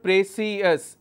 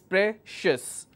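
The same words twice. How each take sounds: First: The stress is on the second syllable. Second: The stress is on the first syllable. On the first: The speaker calls it wrong. "It's not precious" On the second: The speaker calls it right. "my stress will be on P R E, pre"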